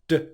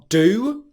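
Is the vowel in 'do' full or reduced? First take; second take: reduced; full. First: The word has a short schwa vowel. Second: The word has a full, long oo vowel. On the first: "the D sound plus the schwa sound" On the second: "with their normal pronunciation are do"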